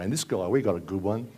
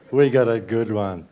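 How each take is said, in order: First: Said in the usual way. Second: Slow, louder sarcastic repeat; sarcastic emphasis. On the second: Shown as a demonstration. Comedian mocking Tony Abbott to the crowd, slow loud sarcasm. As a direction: lean on it, dripping sarcasm.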